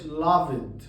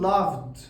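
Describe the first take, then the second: First: The ending has a vowel before the d. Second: The ending is a plain d with no vowel. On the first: The speaker calls it wrong. "ما بقولش loved" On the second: The speaker calls it right. "بقول loved"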